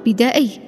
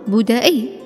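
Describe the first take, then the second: First: The first syllable has the vowel 'a' (bada'i). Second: The first syllable has the vowel 'u' (buda'i). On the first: The speaker calls it wrong. "لا تقل" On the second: The speaker calls it right. "بضم الباء"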